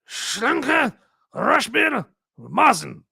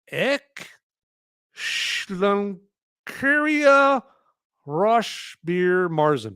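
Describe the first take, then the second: First: The name is said with a German accent. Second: The name is said with an English accent.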